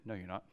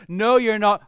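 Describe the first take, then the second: First: Quiet retort. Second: Louder retort. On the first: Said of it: "all of you said". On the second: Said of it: "the first thought we have is". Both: Shown as a demonstration.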